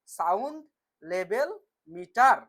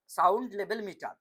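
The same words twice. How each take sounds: First: "sound level metre" spelled out slowly, each word separate, "metre" loud with a rise; slow stressed repeat. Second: Said in the usual way. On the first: Shown as a demonstration. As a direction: slowly drill the term into the class. (ধীরে, জোর দিয়ে "sound level metre") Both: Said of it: "কি বললাম?".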